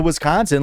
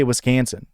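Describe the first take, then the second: First: Said in the usual way. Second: Wisconsin said "wis-KAN-sin", middle vowel as in cat; imitated local Wisconsin with a cat-like "a"; local Wisconsin accent. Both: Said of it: "people say Wisconsin".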